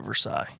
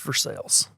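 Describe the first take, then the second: First: The final syllable does not sound like 'sale'. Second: The final syllable sounds like the word 'sale'. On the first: The speaker calls it wrong. "You don't call it Versailles" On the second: The speaker calls it right. "It's Versailles, but it's not for sale"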